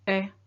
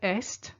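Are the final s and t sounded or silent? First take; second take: silent; sounded. First: Only the vowel is said, s and t silent. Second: The s and t at the end are sounded. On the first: It means is. The speaker calls it right. "Notice the est make the sound e" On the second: It would mean east. The speaker calls it wrong. "don't say est, because est means east"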